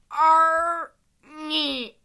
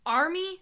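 First: Drawn-out, higher, louder creature voice; a huge creature attempting to speak English; Flair's effortful English. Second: Quick, higher-pitched query; short questioning repeat at normal volume; questioning echo. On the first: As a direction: labour slowly through an unfamiliar word. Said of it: "trying to use proper English". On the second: Acted. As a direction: echo it back as a surprised question. Sam questions Flair's one word.

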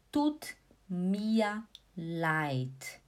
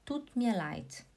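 First: "tut mir leid" slowly, "mir" ending in A; slow pronunciation demo. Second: Said in the usual way. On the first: Shown as a demonstration. Teacher modelling tut mir leid for students, very slow. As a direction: stretch each word of "tut mir leid" apart. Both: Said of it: "Aí você fala".

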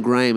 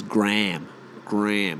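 First: GRAHAM as two-syllable GRAY-um; long AY, then um, in Graham; proper pronunciation. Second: GRAHAM squashed to "Gram"; one syllable Graham, like "gram"; mock Yank Gram for Graham; American pronunciation. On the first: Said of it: "the name Graham is". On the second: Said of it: "They say the word". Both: Shown as a demonstration.

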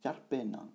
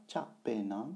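First: "Char Pe Na" with an R closing "Char"; R sounded. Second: "Cha Pe Na" with no R after "Cha"; without the R. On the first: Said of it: "c'est Char Pe Na". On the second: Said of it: "ce n'est pas". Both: Shown as a demonstration.

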